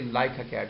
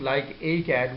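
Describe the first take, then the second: First: The k sound links into the next word. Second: The words are said separately, not linked. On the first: The speaker calls it right. "we say like a cat. So the sound of a has been connected" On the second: The speaker calls it wrong. "instead of saying"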